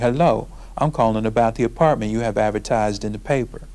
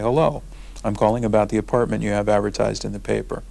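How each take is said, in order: First: It is said in an African American dialect. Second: It is said in a standard professional accent. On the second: "with my professional voice"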